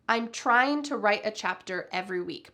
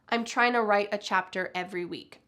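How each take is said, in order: First: It is said carefully with 'trying to' in full. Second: It is said quickly with 'trying to' reduced.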